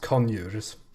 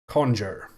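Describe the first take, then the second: First: The J is said the Swedish way. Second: The J is said the English way.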